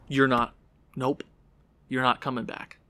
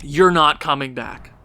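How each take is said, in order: First: Softer, final verdict; quiet. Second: Said in the usual way. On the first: Real, not acted. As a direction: say it softly, done with him.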